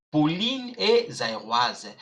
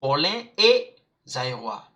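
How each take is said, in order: First: "Pauline" as po-LEEN, "Zaïroise" ending in "waz"; feminine sounded consonants. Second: "Paulin" as po-LAN, "Zaïrois" ending in "wa"; masculine nasal ending. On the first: Teacher showing the female form, "Pauline" with clear final n. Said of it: "So I'm not pronouncing". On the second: Teacher showing the male name, "Paulin" with nasal ending. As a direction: silent final consonants in "Paulin" and "Zaïrois". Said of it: "it's Paulin". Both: Shown as a demonstration.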